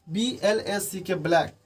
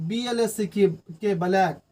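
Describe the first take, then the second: The two takes are said the same way.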